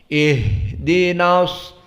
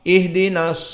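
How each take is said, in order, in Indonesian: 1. 'ih' pembuka dipanjangkan dengan napas yang terdengar. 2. 'ih' pembuka diucapkan cepat dengan sedikit napas. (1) "keluarkan udara, dikeluarkan suara. Ada jenjang waktu" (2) "bacanya yang cepat salah"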